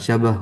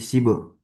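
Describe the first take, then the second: First: The first vowel is an 'a' sound. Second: The first vowel is an 'i' sound. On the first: The speaker calls it wrong. "bukan syabah" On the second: The speaker calls it right. "tapi sibah"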